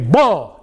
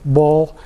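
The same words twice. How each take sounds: First: It is said forcefully and emphatically. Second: It is said hesitantly and weakly.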